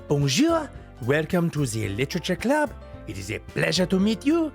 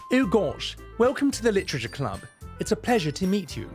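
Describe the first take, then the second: First: It is said in a French accent. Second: It is said in an English accent.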